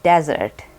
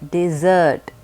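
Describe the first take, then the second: First: The stress is on the first syllable. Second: The stress is on the second syllable. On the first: The speaker calls it wrong. "very commonly mispronounced as desert" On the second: The speaker calls it right. "The emphasis is on the second syllable"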